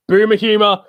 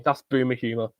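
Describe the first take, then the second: First: "Boomer humor" yelled higher and louder, teasing; loud, high teasing call; mocking shout. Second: Said in the usual way. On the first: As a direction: taunt the friend with it.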